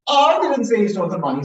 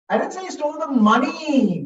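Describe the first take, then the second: First: The word "I" carries the main stress. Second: The word "money" carries the main stress. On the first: Someone else said it. "Someone else said it, not me" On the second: He may have taken something else.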